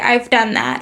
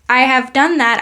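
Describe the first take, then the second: First: 'Have' is contracted onto 'I' as 've'. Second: 'Have' is said in full as a separate word. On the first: "I say" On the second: "instead of saying"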